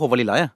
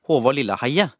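First: The name is said quickly and less clearly. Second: The name is said slowly and clearly. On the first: "Men folk har ikke, det blir jo" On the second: "du må si det litt sånn langsomt og tydelig"

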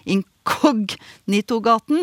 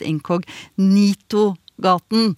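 First: The stress falls on the second syllable, kog. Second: The stress falls on the third syllable, ni. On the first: This is the street's official name. "heter Inkognitogaten" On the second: This is how people very often say it. "men som veldig ofte uttales Inkognitogaten"

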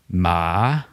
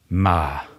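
First: The word is said on a dipping-rising tone. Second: The word is said on a low falling tone. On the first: The word means grave. "Det betyr grav" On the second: The word means but or which. "Det betyr menn, eller som"

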